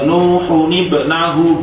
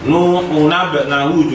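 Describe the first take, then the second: First: The linking n carries an i vowel. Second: The linking n carries an a vowel. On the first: The speaker calls it right. "harus dibaca kas kasroh" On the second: The speaker calls it wrong. "juga nggak boleh"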